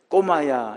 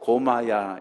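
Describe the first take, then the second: First: The first consonant is a tense k sound. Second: The first consonant is a plain k sound. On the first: The speaker calls it right. "꼬마야 이렇게 발음을 못하고" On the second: The speaker calls it wrong. "고마야 이렇게 발음을 했습니다"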